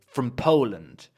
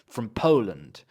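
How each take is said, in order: Both takes have the same delivery.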